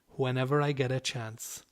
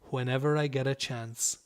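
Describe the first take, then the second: No difference in how they are said.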